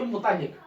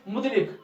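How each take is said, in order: First: मुतल्लिक with a doubled l, mu-tal-lik; correct pronunciation. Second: मुतलिक run together with a single l; common pronunciation. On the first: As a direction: press the ल in मुतल्लिक. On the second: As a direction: say मुतलिक short, as mut-lik. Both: Shown as a demonstration. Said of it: "पढ़ना हमको चाहिए".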